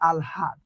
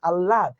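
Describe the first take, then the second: First: An l is followed by a clear h sound. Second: A doubled l is heard with no h sound. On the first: The speaker calls it right. "এখানে উচ্চারণটা কি হচ্ছে আলহাদ" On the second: The speaker calls it wrong. "এটা আমরা কি বলি আল্লাদ"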